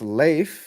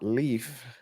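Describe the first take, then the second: First: The name does not sound like 'leaf'. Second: The name sounds like the word 'leaf'. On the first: The speaker calls it right. "it's pronounced Leif" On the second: The speaker calls it wrong. "not Leaf"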